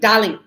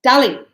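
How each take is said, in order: First: It is said in a rude, petty tone. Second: The same.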